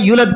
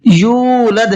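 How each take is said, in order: First: The first vowel is short. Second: The first vowel is stretched long. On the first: The speaker calls it wrong. "आम तौर पर लोग इसके अंदर गलती करते हैं" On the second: The speaker calls it right. "यू खींच करके पढ़ना है इसको"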